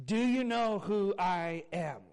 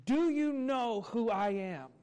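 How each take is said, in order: First: Slow, sincere asking; gentle question. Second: Loud, slow, demanding; insistent. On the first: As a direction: ask it kindly, not demanding. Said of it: "not asking it in a demeaning way". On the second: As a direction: announce yourself to the whole line, slowly. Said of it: "in a demanding voice". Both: Retold or imitated.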